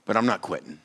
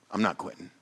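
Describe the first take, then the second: First: Said in the usual way. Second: Quiet determined repeat; softer resolve. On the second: Real, not acted. Pastor repeats to congregation, soft and resolute. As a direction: say it again, softer and firm.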